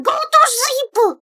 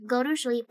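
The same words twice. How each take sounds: First: High, loud, slow scolding; playful scolding. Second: Said in the usual way. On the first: Real, not acted. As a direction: order them to bed, teasing.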